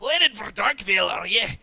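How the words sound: It is said in a put-on character voice.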